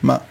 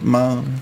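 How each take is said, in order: First: The syllable is cut off quickly. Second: The syllable is held out for a while. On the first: "ein kurzer Ton" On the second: "oder ein langer Ton"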